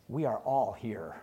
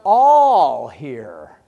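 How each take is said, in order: First: Quieter, lower restatement of we are all here; hushed we are all here; soft repetition. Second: Louder, ringing declaration of all here; booming all here; loud proclamation. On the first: Shown as a demonstration. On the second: Retold or imitated. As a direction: call out all here to the whole room. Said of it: "he says".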